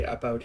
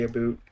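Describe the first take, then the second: First: "about" with an open ow vowel; plain Canadian "about". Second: "a boot", about said with an oo vowel. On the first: Showing how we say it here, "about" with an ow. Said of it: "We say "about" here". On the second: Mocking what people think Canadians say, "a boot" with an oo. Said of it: "I think all Canadians say". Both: Shown as a demonstration.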